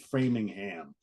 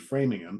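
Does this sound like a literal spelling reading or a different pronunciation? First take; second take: spelling reading; different pronunciation. First: The name is read out the way it is spelled. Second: The name is said differently from its spelling. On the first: This is how it looks on paper. The speaker calls it wrong. "If you if you read it, it's Framingham" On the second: This is probably how locals say it. The speaker calls it right. "but it's probably Framingham"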